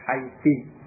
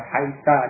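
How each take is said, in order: First: The word ends with an i vowel. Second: The word ends with an a vowel. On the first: "dengan kasrah" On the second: "dengan fathah"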